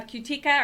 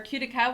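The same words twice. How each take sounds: First: "Cutica" said as kyoo-TEE-kuh; alternative pronunciation. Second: "Cutica" said as KYOO-tih-kuh; alternative pronunciation. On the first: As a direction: try "Cutica" with the middle syllable stressed. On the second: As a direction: try "Cutica" with the first syllable stressed. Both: Shown as a demonstration. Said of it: "exactly how to pronounce it".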